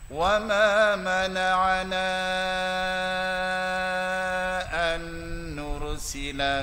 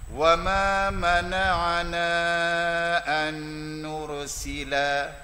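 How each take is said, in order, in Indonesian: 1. Vokal panjang ditahan selama enam harakat. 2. Vokal panjang ditahan selama dua harakat. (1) "Saya ambil enam" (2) "saya ambil dua harakat"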